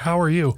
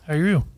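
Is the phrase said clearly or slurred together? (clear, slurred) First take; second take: clear; slurred. First: Each word is clearly and carefully articulated. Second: The words are slurred and run together. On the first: The speaker calls it right. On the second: The speaker calls it wrong.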